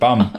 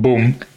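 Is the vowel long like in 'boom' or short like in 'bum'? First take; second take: short; long. First: The vowel is short, as in 'cup'. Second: The vowel is long, as in 'moon'. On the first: The speaker calls it right. "It's bum, isn't it?" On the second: The speaker calls it wrong. "Not boom"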